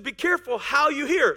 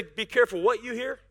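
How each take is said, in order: First: "Be careful how you hear", the word "how" as the point; the true wording, "how" marked; right version. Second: "careful" leaned on, the misquote; wrong version. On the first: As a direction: land on "how" and finish falling on "hear". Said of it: "He said". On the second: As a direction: stress on "careful" in "Be careful what you hear". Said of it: "He didn't say". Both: Shown as a demonstration.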